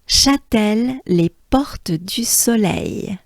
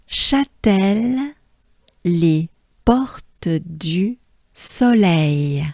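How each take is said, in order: First: It is said naturally, like a native French speaker. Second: It is said carefully, not like a native speaker. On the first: "I'll say it as a French person" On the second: "let's take a good breath"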